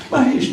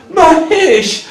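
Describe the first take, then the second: First: Said in the usual way. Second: Loud, high imitated battle cry; high, full-voiced retold scream. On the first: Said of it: "is the name of Shiva". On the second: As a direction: yell it out like a wild bull-rider. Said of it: "He screams out".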